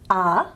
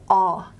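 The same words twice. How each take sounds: First: The vowel is central. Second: The vowel is further back. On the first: "I'm trying to do a central vowel" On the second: "what's more of a back vowel"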